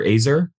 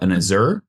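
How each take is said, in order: First: "Azur" tried as AY-zer, stress first; alternative pronunciation. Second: "Azur" tried with the stress on the second syllable; tentative pronunciation. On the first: Game master offering another fire dwarf name, alternative pronunciation. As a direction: offer "Azur" with a long opening A, as a question. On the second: Game master unsure of the fire dwarf's name, tentative pronunciation. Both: Real, not acted. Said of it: "if I'm pronouncing this right".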